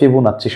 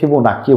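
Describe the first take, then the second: First: The middle consonant is a 'ch' sound. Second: The middle consonant is a 'k' sound. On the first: "অনেকে চ উচ্চারণ করে" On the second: "অনেকে ক উচ্চারণ করে"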